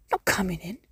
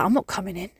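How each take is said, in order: First: Softer, trailing sulky cat echo; stubborn cat repeats. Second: A lightly voiced sulky cat, a touch softer; mock the cat's flat refusal; stubborn cat voice. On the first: Retold or imitated. Cat repeating its refusal to its owner, softer and sulkier. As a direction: let the cat's refusal fade out. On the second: Stubborn cat refusing to come in at night, lightly voiced. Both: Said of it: "they look at me like that".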